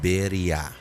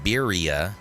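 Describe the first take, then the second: First: It is said with a Spanish pronunciation. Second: It is said with an anglicized pronunciation.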